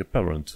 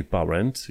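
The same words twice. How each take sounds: First: "parent" as "peh-rnt"; correct English parent. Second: "parent" with an open "a", "pa-rent"; wrong, as spelt. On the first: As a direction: open with "peh" in "parent", falling. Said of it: "e parent". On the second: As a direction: say "parent" as written, rising. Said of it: "Nu e parent". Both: Shown as a demonstration.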